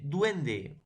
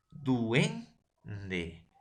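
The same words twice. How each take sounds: First: Said in the usual way. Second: "duende" drawn out as duen... de; split into syllables. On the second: Shown as a demonstration. Teacher syllabifies for the class, "duende" broken as duen-de. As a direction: say "duende" in two separate beats, ue kept together. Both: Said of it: "vamos a silabear".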